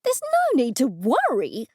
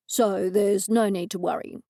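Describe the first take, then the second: First: Louder, disbelieving shriek of a question; a woman screaming back the detective's reassurance; incredulous scream. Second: Said in the usual way. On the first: A narrator's reading. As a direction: throw the words back at him in shock. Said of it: "I screamed". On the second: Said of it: "Bronco said again".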